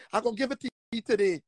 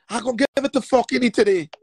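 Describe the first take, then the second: First: Quick low muttered threat. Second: Louder, punching every word; loud emphatic threat. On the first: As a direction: rush it under your breath. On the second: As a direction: hit him with it hard. Repeated threat, building up. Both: Shown as a demonstration.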